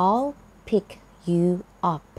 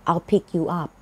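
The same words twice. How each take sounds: First: Each word said separately with pauses between. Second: Said in the usual way. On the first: Shown as a demonstration. Teacher giving learners the words one at a time, slowly and separately. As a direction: break "I'll pick you up" into single words for the learner. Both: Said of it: "คำว่า pick up แปลว่าไปรับค่ะ".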